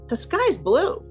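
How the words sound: It is an energized response to another person.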